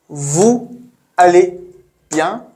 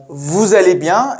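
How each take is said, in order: First: «Vous... allez... bien?» each word separate, with pauses. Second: «Vous allez bien?» run together, linked with a z; pronounced together. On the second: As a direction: link «Vous allez» as voo-zallay, no gaps. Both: Shown as a demonstration. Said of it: "Pronounced together as".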